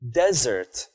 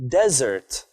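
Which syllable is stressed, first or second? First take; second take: first; first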